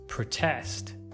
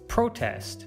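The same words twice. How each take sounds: First: The stress is on the second syllable. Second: The stress is on the first syllable. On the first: It is used as a verb. "you should stress the second syllable" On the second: It is used as a noun. "you should stress the first"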